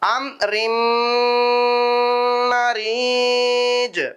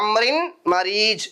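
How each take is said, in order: First: The n sound merges into the following m. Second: The n sound is kept before the m.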